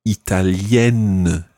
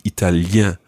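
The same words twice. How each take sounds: First: "italienne" slowly, ending in a clear -enne with the n spoken; sounded n ending. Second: "italien" ending in a nasal vowel, no n sounded. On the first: Teacher models "italienne" for learner, final n sounded. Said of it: "the sound at the end is". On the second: Teacher contrasts "italien" with its nasal ending, no n. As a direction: close "italien" on a nasal -ien. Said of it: "as opposed to". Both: Shown as a demonstration.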